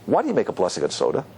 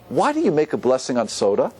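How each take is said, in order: First: It sounds mocking, laughing at the idea. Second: It sounds like a sincere, curious question. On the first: The asker is attacking the practice, not seeking an answer. "I could say those same words in a different way" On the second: The asker genuinely wants an explanation. "I could either mean, you know, I teach me, like, why are you so specific?"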